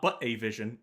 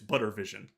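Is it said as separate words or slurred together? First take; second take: separate; slurred. First: The words are said separately and clearly. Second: The words are slurred together into one. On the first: "It's not but a vision" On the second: "it is just slurred to all heck"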